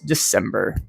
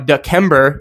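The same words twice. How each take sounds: First: The C is said with an S sound. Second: The C is said with a K sound. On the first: The speaker calls it right. "it is December" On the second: The speaker calls it wrong. "instead of, you know, it being uh, it being December"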